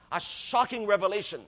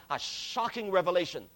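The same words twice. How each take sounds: The two takes are said the same way.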